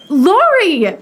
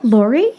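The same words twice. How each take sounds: First: Higher, louder glad cry of his name; delighted call. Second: Said in the usual way. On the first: Acted. Amy spotting Lori across the room, delighted call. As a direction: call out to him with joy.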